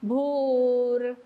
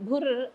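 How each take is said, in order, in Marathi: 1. स्वर पूर्ण दीर्घ धरला आहे. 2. स्वर ह्रस्व आणि तुटक म्हटला आहे. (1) "भू पूर्ण दीर्घ म्हणायचा" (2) "भुर् असा होतोय ना"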